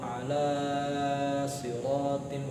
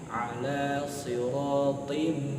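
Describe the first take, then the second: First: The vowel in ala is stretched far too long. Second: The vowel in ala is lengthened only moderately. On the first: The speaker calls it wrong. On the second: The speaker calls it right. "cukup dua seperti ini"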